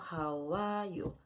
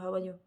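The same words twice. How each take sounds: First: The phrase is said slowly and carefully. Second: The phrase is said quickly and smoothly. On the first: "제일 처음엔 천천히 읽게 되겠죠" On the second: "점점 속도가 나도 모르게 속도가 붙어요"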